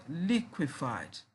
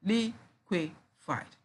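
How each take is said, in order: First: Said in the usual way. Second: "liquefied" slowly in three separate beats; syllable by syllable. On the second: Shown as a demonstration. Teacher showing three syllables, syllable by syllable. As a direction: leave gaps between all three syllables of "liquefied". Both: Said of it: "Again, we have three syllables".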